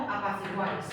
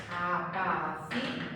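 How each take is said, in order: First: Said in the usual way. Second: Apaciguáis drawn out slowly, syllable by syllable, guáis kept as one. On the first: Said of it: "Pensad, por ejemplo". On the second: Shown as a demonstration. Teacher showing students a triphthong, apaciguáis slowly syllable by syllable. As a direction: break apaciguáis into slow, separate syllables. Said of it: "una sola sílaba".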